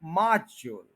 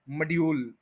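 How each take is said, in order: First: मॉड्यूल as MAA-jul, J for D; correct pronunciation. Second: मॉड्यूल as muh-dee-YOOL; wrong pronunciation. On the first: Teacher modelling for learners, मॉड्यूल as MAA-jul. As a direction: stress the first half of मॉड्यूल, weak jul. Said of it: "मौज को stress देना है". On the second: Teacher showing learners the error, मॉड्यूल as muh-dee-yool. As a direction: keep a D sound in मॉड्यूल, long yool. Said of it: "ये word मॉड्यूल नहीं है". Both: Shown as a demonstration.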